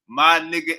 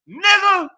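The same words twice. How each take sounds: First: Said in the usual way. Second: Last word pitched very high, drawn out and loud; contrasting pronunciation. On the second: Shown as a demonstration. Showing the difference between two forms, exaggerated high and long. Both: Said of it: "we know the difference between you".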